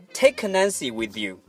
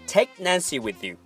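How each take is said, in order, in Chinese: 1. take 末尾的 k 能听到释放。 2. take 末尾的 k 是保持无声的。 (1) "千万不要说" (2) "而是"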